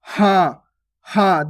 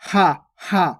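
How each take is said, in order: First: हाँ held through nose and mouth; nasalised vowel. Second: हा short and purely oral; plain unnasalised vowel. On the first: Teacher adding chandrabindu, nasalised हाँ. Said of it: "चंद्र बिंदु को उच्चारण हो रहा है". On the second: Teacher showing the unmarked word, short oral हा. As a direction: say हा with no nasal sound. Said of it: "simple इस प्रकार से होता है". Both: Shown as a demonstration.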